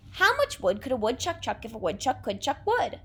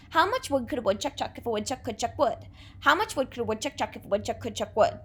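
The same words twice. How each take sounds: First: Said in the usual way. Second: Rattled off fast, every wood and chuck kept crisp; fast tongue twister. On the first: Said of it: "Another one that we can do". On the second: Shown as a demonstration. Teacher racing the tongue twister for the class to copy. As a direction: race through How much wood could a woodchuck chuck at speed. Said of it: "Your turn".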